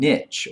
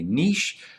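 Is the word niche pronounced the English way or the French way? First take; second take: English; French. First: The word is pronounced the English way. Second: The word is pronounced the French way.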